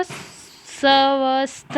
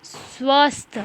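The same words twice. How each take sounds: First: स्वस्थ misread slowly as सवस्थ; wrong full-स reading. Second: स्वस्थ with स joined straight onto व; correct half-स reading. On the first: Teacher shows what not to read, drawn-out wrong pronunciation. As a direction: give स्वस्थ a full, separate "sa" before "vasth". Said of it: "आधा स है तो स्वस्थ नहीं पढ़ेंगे". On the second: Teacher corrects the misreading, model pronunciation with half स. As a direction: say स्वस्थ as "svasth", no vowel after the s. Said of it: "आधा स है". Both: Shown as a demonstration.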